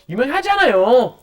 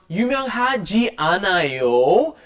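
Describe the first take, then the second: First: The phrase is shortened, with a changed intonation. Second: The phrase is said in its full, unshortened form. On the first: We all know you are famous. "it has been shortened and the intonation changes" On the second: You are not famous. "which is the negative form"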